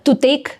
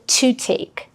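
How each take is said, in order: First: The t is plain, without extra breath. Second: The t is released with extra breath. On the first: The speaker calls it wrong. "українець скаже" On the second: The speaker calls it right. "канадець скаже"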